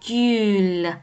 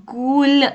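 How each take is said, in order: First: گول said with a rounded front ü, like Turkish gül; the correct گول with front rounded ü; correct Turkish vowel. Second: گول said with a plain back u, as in gul; deliberately wrong گول with plain u; wrong vowel demo. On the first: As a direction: show the right way: گول with ü. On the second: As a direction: show the mistake: گول with an ordinary u. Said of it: "گول نیست ها بچه ها". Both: Shown as a demonstration.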